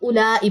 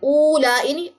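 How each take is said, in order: First: The first vowel is a short 'u' sound. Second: The first vowel is a long 'o' sound. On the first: The speaker calls it right. "उलाई पढ़ा गया" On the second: The speaker calls it wrong. "ओ नहीं पढ़ा गया, उलाई नहीं"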